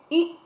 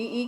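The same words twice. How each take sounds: First: ई clipped to one quick beat; short vowel. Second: ई stretched out long; long vowel. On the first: Teacher recapping both sounds for children, short ई. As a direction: say ई short, no holding. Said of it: "छोटी ई की मात्रा". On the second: Teacher recapping both sounds for children, long ई. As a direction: hold ई for a long beat. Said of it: "बड़ी ई की मात्रा". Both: Shown as a demonstration.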